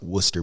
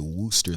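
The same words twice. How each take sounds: First: The first vowel is a short 'wuh' sound. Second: The first vowel is a long 'woo' sound. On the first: This is the name's local pronunciation. "pronounced like Worcestershire sauce" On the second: This is said so outsiders understand. "so I just say Worcester"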